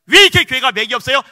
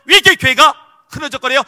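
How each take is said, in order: First: Loud, high rhetorical question pressing on 왜; fiery preaching. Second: Even higher and louder rhetorical question pressing on 왜; fiery preaching. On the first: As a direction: hammer 왜 like an accusation to the crowd. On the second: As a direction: push 왜 harder, building the outcry. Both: Acted. Preaching at full force.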